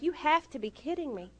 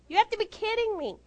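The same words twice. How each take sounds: First: Restrained incredulity, stress on HAVE; softer, contained "You have to be kidding me"; retold disbelief. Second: High-pitched incredulous outburst; "You have to be kidding me" pitched way up on HAVE; retold exasperation. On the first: Retold disbelief, first milder take. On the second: Retold disbelief, escalated repeat.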